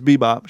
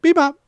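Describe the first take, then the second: First: Said in the usual way. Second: Very high, loud parrot squawk; parrot saying a name. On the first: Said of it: "Now she says Bebop". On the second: Retold or imitated. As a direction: squawk BEBOP sharply, way up high. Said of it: "She's like".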